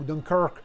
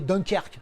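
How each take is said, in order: First: The name is pronounced the English way. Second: The name is pronounced the French way. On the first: The speaker calls it wrong. "c'est pas Dunkirk" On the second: The speaker calls it right. "C'est Dunkerque"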